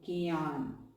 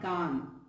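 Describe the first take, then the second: First: The g is followed by a y glide. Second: The g has no y glide after it. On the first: The speaker calls it right. "So gyan" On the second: The speaker calls it wrong. "not gan"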